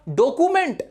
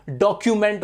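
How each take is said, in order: First: डॉक्यूमेंट said without the yu, as ɖokument; mistaken pronunciation. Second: डॉक्यूमेंट said with a clear kyu, as ɖɔkjument; correct pronunciation. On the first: Teacher imitating students' mistake, mock wrong pronunciation. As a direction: show the common wrong डॉक्यूमेंट. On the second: Teacher correcting students, careful model pronunciation. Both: Shown as a demonstration. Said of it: "बहुत ज्यादा लोग डॉक्यूमेंट बोलते हैं".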